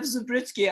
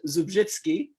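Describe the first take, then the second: First: The surname is said with English sounds. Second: The surname is said with Polish sounds.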